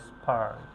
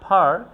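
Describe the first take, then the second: First: "স্পার্ক" lower, with no puff on the P; unforced P after S. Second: "পার্ক" loud and rising, with a puff on the first sound; forceful aspirated P. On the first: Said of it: "এক্ষেত্রে জোর দেই না". ("স্পার্ক"-এ "প"-তে জোর না দিয়ে) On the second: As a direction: blast the opening of "পার্ক". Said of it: "pressure দিয়ে উচ্চারণ করি". ("পার্ক"-এর শুরুতে শ্বাস ছেড়ে জোরে) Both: Shown as a demonstration.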